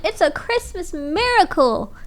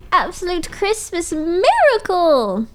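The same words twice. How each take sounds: First: Said in the usual way. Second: Miracle stretched slow and high; stress on miracle. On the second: Shown as a demonstration. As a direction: draw out miracle.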